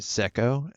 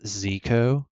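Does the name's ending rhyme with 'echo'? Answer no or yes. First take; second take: yes; no. First: The name rhymes with echo. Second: The name does not rhyme with echo. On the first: The owner says the name this way. "I go by Zeko, as in like an echo" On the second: Other people say the name this way. "I've heard some people say my name as"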